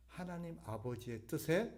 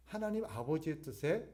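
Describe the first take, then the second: No difference in how they are said.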